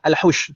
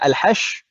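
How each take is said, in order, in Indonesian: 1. Bunyi vokal setelah h adalah 'u'. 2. Bunyi vokal setelah h adalah 'a'. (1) "atau dhammah" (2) "bisa dibaca fathah"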